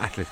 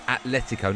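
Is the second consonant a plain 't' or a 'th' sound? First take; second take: th; plain t. First: The second consonant is a th sound. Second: The second consonant is a plain t sound. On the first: The speaker calls it wrong. "not Atletico, there's no H" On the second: The speaker calls it right. "it's Atletico"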